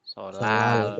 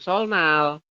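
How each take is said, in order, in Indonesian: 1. N berubah menjadi L, jadi jadi L panjang. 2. Ada bunyi N setelah L. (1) "bacanya adalah sol" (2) "Anda bacanya bukan solnal"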